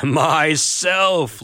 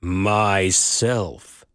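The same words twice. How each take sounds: First: Loud, clear declaration. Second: Lower, deep and grave. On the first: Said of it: "loud and clear". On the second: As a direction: say it low enough the earth shakes. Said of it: "very deep and low". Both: A narrator's reading.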